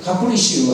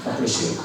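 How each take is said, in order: First: God bless you with a firm stress on bless; emphatic blessing. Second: God bless you whispered on the breath. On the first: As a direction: say bless you boldly and with conviction, hitting bless. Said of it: "시작". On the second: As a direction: hush it as a soft, breathy blessing. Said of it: "하지 말고". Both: Shown as a demonstration.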